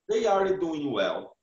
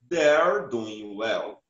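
First: They and are are said as two full words. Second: They and are are shortened into one syllable.

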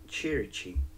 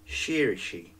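First: It is said with a Sicilian pronunciation. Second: It is said with a French pronunciation. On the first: The speaker is a native Sicilian. The speaker calls it right. "Its Sicilian pronunciation is" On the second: The speaker is French. The speaker calls it wrong. "as they would say"

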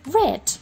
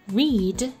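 First: The word has a short vowel, like 'red'. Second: The word has a long vowel, like 'reed'. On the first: It is the past form of the verb. "the simple past is pronounced read" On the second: It is the base form of the verb. "The infinitive is pronounced read"

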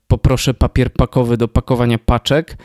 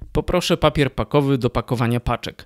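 First: The p sounds cause loud popping bursts. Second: The p sounds are clean without popping bursts. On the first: The speaker calls it wrong. "nie jest zbyt odporna na głoski wybuchowe" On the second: The speaker calls it right. "Ja teraz założę gąbkę i powiem to samo"

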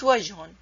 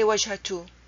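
First: No t sound comes before the final vowel. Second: A t sound comes before the final vowel. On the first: The speaker calls it right. "It's وجهن" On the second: The speaker calls it wrong. "You cannot say وجهتو"

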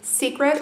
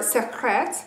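First: The name is said in an ordinary pronunciation. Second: The name is said imitating another pronunciation. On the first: "This is in Secret" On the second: "as she said. I'm not very good at saying that"

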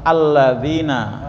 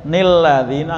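First: The word begins directly with a vowel. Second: The word begins with an added n syllable. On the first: The speaker calls it right. "langsung alladzina ya" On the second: The speaker calls it wrong. "Jadi enggak boleh nilladzina, enggak boleh"

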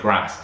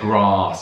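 First: The vowel is a short 'a' as in 'cat'. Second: The vowel is a long 'ah' sound. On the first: This is the American way of saying it. "Americans say grass" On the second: This is the British way of saying it. "we say grass"

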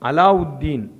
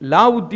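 First: The name is said in the full Arabic form. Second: The name is said in a clipped local form. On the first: The speaker calls it right. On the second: The speaker calls it wrong.

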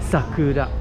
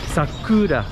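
First: The middle syllable ku is not stressed. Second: The middle syllable ku is stressed. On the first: The speaker calls it right. "the proper way to pronounce it is Sakura" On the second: The speaker calls it wrong. "I put the emphasis on the ku"

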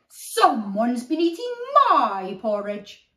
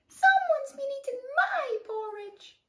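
First: It is said in a deep growling voice. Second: It is said in a high squeaky voice.

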